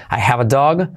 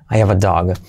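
First: "have" with a clear breathed h, rising end; sounded H. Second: "I have a dog" as "I 'ave a dog", falling; lower, h gone from "have"; dropped H. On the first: Teacher contrasts forms, "have" with h. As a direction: keep the h in "I have a dog". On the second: Teacher contrasts forms, "have" without h. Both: Shown as a demonstration. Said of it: "se suele omitir".

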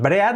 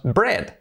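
First: "bread" read as breh-at, two vowels; Spanish-style "bread" with e and a sounded; wrong pronunciation. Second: Said in the usual way. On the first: Shown as a demonstration. Teacher showing what we don't say, mispronounced. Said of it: "no decimos bread". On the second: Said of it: "decimos bread".

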